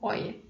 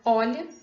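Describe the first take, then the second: First: The middle consonant is a y-like glide. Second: The middle consonant is a palatal lateral sound.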